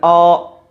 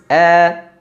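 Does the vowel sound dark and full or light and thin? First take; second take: dark; light. First: The vowel sounds dark and full, like o. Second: The vowel sounds light and thin, like a. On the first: The speaker calls it wrong. "tidak dibaca dengan O" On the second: The speaker calls it right. "tapi tipis"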